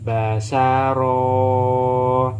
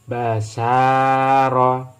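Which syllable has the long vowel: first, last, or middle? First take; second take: last; middle. First: The last syllable's vowel is drawn out long. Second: The middle syllable's vowel is drawn out long. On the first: "yang ro, fathah bertemu dengan alif. Berarti ini yang dibaca dengan panjang" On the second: "Yang sin setelah fathah ada alif. Berarti ini yang dibaca dengan panjang"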